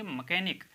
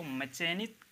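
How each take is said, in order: First: मैकेनिक with a hard K sound; silent H. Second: मैकेनिक misread with "ch" as in chair; CH sound. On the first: Teacher giving the correct form, मैकेनिक with K. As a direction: say मैकेनिक, CH read as K. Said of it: "इसको पढ़ेंगे मैकेनिक". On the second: Teacher showing the mistake, मैकेनिक with a ch sound. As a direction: say "ma-CHAY-nik" for मैकेनिक. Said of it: "इसको मैकेनिक नहीं पढ़ेंगे". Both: Shown as a demonstration.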